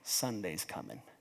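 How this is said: It is said in an ominous, dreading tone.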